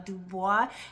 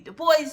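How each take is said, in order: First: The final S is silent, French style. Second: The final S is clearly pronounced. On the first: The speaker calls it wrong. "he did not want it pronounced the French uh, way" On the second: The speaker calls it right. "He did want you to pronounce the S"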